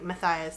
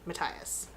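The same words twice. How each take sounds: First: The name is pronounced the usual American way. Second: The name is pronounced a non-American way. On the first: This is how people the speaker knows say it. "I pronounced it like Matthias through the entire first book" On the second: This is the author's official pronunciation. "I heard her pronounce it Matthias"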